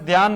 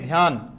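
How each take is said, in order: First: The first consonant is said without aspiration. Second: The first consonant is said with aspiration. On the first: The speaker calls it wrong. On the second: The speaker calls it right.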